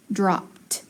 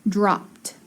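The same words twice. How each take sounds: The two takes are said the same way.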